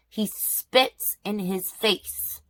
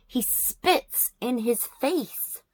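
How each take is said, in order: First: Slow, stunned stress on each word; appalled emphasis. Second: Slower and higher, every word hit; appalled repeat. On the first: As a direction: spell out the outrage slowly. Outraged retelling of spitting. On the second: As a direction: hammer home the disgust. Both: Real, not acted.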